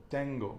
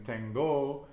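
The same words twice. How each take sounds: First: "tengo" stressed on "ten"; penultimate-syllable stress. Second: "tengo" wrongly stressed on the last syllable "go"; wrong final stress. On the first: Teacher showing student the stress rule, penultimate stress on "tengo". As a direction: punch "ten" in "tengo", let "go" fall. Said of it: "The penultimate syllable". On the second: Teacher showing what not to say, final stress on "tengo". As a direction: lean on "go" in "tengo", drawn out slowly. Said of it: "we're not saying tengo". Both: Shown as a demonstration.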